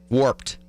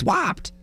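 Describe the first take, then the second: First: It is said in a plain accent. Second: It is said in a Providence accent. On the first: It is the speaker's own pronunciation. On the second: It imitates how the cousins said it.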